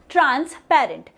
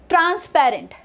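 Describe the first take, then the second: First: "transparent" said in two parts, trans, pause, parent; word split into parts. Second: Said in the usual way. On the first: Shown as a demonstration. Teacher showing the syllables, "transparent" split as trans, parent. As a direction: break "transparent" after trans. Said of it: "T R A N S is pronounced differently". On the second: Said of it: "the next example is".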